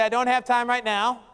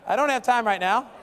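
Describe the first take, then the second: First: It is said plainly, without much feeling. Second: It is said with strong, expressive feeling.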